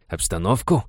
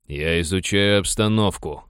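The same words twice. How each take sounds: First: "обстановку" thrown back as a rising question; questioning echo of the excuse; incredulous echo. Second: Mildly testy retort, falling at the end; understated snappish answer with "обстановку" falling; defensive retort. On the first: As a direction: repeat "обстановку" in disbelief, tune going up. Superior echoes excuse back, incredulous. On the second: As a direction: snap back a little, defending yourself. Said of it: "огрызнулся абордажник". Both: A narrator's reading.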